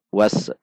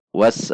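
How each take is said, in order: First: Was with an echoing bounce on s; bouncing s. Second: Was with a short, held s, no bounce; crisp sukun s. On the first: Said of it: "Contoh yang memantul adalah was". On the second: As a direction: stop the s in Was cleanly. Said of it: "harusnya was". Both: Shown as a demonstration.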